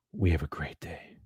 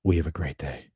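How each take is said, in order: First: Slow breathy whisper; hushed, drawn-out whisper. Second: Said in the usual way. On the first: Acted. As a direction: whisper it slowly like a secret. Repeated phrase whispered.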